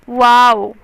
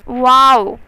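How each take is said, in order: The two takes are said the same way.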